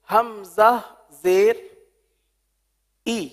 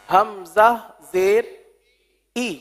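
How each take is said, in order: First: The final vowel is a clear, high ee. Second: The final vowel is a clear, high ee.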